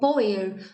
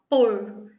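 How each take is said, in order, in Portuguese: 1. O verbo é pronunciado com duas sílabas. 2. O verbo é pronunciado com uma sílaba. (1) "antigamente, a gente pronunciava esse verbo como poer" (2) "Com a evolução da língua portuguesa, passou-se a falar por"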